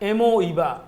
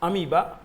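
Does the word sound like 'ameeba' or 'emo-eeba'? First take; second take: emo-eeba; ameeba. First: It is said in four syllables, like e-mo-ee-ba. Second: It is said in three syllables, like a-mee-ba. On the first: It is a spelling aid, not everyday speech. "ये तरीका है ताकि spelling गलत ना हो" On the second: It is the usual everyday pronunciation. "जिसे अमीबा बोलते हो"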